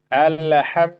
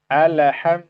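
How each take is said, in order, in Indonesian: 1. Bunyi L dilepaskan dengan memantul. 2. Bunyi L dilepaskan dengan memantul.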